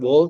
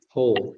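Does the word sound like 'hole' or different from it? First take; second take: different; like hole. First: It is not pronounced like the word hole. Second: It is pronounced just like the word hole. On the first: The speaker calls it wrong. "bukan whole" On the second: The speaker calls it right. "tapi whole ... kita pronounce lubang ya, sama-sama whole"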